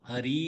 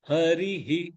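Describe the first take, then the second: First: The word ends on a bare vowel. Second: The word ends with an added 'hi' echo. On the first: The speaker calls it wrong. "ஹரி இல்ல" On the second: The speaker calls it right. "இல்ல ஹரிஹி"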